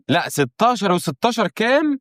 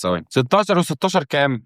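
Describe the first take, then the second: First: Puzzled restart of the sum, drawn out and higher; re-asking the sum in a higher, stretched-out voice; higher, slower retry. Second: Said in the usual way. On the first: Real, not acted. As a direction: ask "ستاشر وستاشر كام" again higher and slower, stretching it out.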